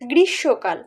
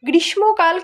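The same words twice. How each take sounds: First: The word is said with no m sound. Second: The word is said with an m sound. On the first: The speaker calls it right. "বলি গ্রীষ্মকাল" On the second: The speaker calls it wrong. "গ্রীষ্মকাল কিন্তু বলি না"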